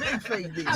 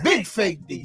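First: It is said at a quieter volume. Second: It is said at a louder volume.

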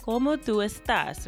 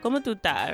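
First: The final s of the last word is pronounced. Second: The final s of the last word is dropped. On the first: The speaker calls it wrong. "So it's really like como tu estás, right? But nobody is going to say it that way" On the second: The speaker calls it right. "When you hear it, it's going to sound like como tu está"

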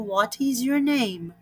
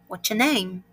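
First: The question is said slowly and drawn out. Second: The question is said fast and clipped.

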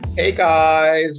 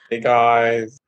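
First: It sounds lively and enthusiastic. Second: It sounds flat, lacking enthusiasm.

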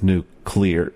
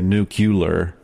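First: The word is said as nu-clear. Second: The word is said as nu-cu-lar. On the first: The speaker calls it right. "but it's nuclear" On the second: The speaker calls it wrong. "W would always say nuclear"

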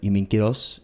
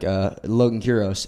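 First: The name is said with Spanish pronunciation. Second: The name is said with English pronunciation. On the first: It is the original version of the name. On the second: It is the easier version for English speakers. "it's just easier"

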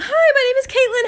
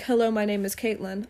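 First: It is said in a much higher voice. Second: It is said in her normal voice.

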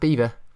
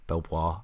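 First: It is said like beaver, with no L. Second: It is said as spelled, with an L. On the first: The speaker calls it right. "Apparently it's pronounced Beaver" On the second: The speaker calls it wrong. "So it looks like Belvoir or Belvoir"

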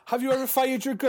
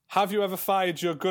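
First: It is said in an imitated film-character voice. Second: It is said in the speaker's normal voice.

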